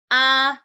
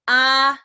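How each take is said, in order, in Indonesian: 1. Nadanya tetap tinggi dan datar. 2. Nadanya tetap tinggi dan datar.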